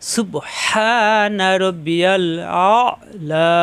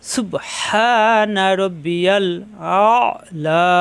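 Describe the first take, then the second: The two takes are said the same way.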